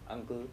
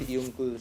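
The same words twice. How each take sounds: First: The first vowel sounds like 'uh'. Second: The first vowel sounds like 'yoo'. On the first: The speaker calls it right. "it is coming as a" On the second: The speaker calls it wrong. "not uncle"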